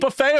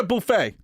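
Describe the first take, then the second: First: Buffet with a short "buh" first syllable; buh-FAY pronunciation. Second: Buffet with a long "boo" first syllable; boo-FAY pronunciation. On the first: Co-host asking which way he says it, buffet as "buh-FAY". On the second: Co-host offering the other option, buffet as "boo-FAY". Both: Shown as a demonstration. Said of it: "Do you say buffet or buffet?".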